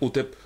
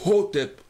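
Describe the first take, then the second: First: The word begins directly with a vowel. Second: The word begins with a breathy h sound. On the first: The speaker calls it wrong. "Les Français ont du mal à prononcer le H aspiré" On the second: The speaker calls it right. "Non, c'est Hotep"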